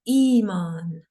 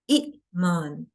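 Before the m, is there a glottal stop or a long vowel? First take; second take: long vowel; glottal stop. First: A long ee vowel runs straight into the m. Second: A short vowel and a glottal catch precede the m. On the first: This is the eased form used today. "Iman is such a common word" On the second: This is the original form before easing. "It was initially Iman"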